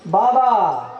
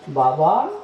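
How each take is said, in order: First: It is said loudly, calling out. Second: It is said softly in a thin, sweet voice.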